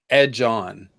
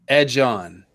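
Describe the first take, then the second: No difference in how they are said.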